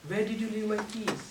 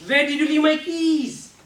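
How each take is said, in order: First: Said in the usual way. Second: Higher and louder exasperated question; same words pushed high and loud; high pitched. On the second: Shown as a demonstration. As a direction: jump the pitch way up to show upset. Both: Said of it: "with just a pitch".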